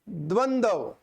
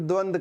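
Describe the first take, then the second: First: The word ends in a 'dva' sound. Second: The word ends in a bare 'd' sound. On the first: The speaker calls it right. "तो उच्चारण होता है द्वंद्व" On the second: The speaker calls it wrong. "आप कई बार द्वंद द्वंद करते हो"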